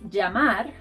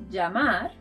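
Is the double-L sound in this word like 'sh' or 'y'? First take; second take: y; y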